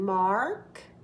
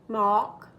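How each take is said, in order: First: The R sound after the vowel is clearly pronounced. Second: The R sound after the vowel is dropped. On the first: "In America, we need to hear the R" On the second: "If you're in England, it's fine to say Mark"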